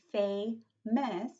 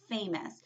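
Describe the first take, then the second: First: "famous" split into two beats, fa-mous; "famous" in two slow, separate parts; clapped-out syllables. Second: Said in the usual way. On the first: Shown as a demonstration. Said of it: "if we cap that word". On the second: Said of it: "it also has two syllables".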